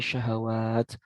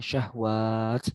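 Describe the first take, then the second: First: An a vowel is heard between h and w. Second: The h runs straight into w without a vowel. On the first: The speaker calls it right. "tapi syahwat" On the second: The speaker calls it wrong. "bukan syahwat"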